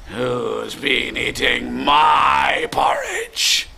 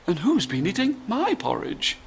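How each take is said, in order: First: Slow, booming bear growl; deep, gruff father bear. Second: High, soft mummy bear voice; kind, polite mother bear. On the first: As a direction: demand it as a big gruff daddy bear. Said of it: "said in his deep, gruff voice". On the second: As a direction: ask it gently and politely, pitched up. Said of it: "in a kind, polite voice". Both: Acted.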